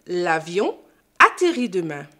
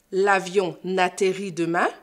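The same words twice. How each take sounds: First: «l'avion» puis «atterrit» sans n; sépare «l'avion» et «atterrit»; sans liaison. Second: «l'avion n'atterrit» avec un n de liaison; liaison fautive. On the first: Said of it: "pas faire de liaison avec le sujet et le verbe". (prononciation correcte sans liaison) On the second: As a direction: lie «avion» à «atterrit» par un n. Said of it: "on ne dit pas". (mauvaise liaison en n) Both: Shown as a demonstration.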